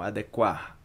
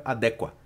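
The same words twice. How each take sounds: First: Adequar with the final R pronounced; final R sounded. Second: Adequa with no R at the end; dropped final R. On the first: Teacher modelling the final R for learners, careful. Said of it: "a pronunciação do R aqui no final". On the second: Teacher showing the wrong version to students, dropped R. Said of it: "Se você não pronuncia esse R aqui, fica". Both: Shown as a demonstration.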